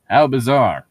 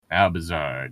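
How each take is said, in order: First: Loud, punchy How bizarre with the stress on "How"; mock exclaim. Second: Said in the usual way. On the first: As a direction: belt "How bizarre" out like a sung hook. Mock reading, song reference.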